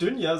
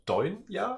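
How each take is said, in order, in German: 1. Der erste Vokal ist ein gerundetes ü. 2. Der erste Vokal klingt wie deutsches eu. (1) "tatsächlich ist es nicht Dünya" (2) "sondern es wäre dann Deunya"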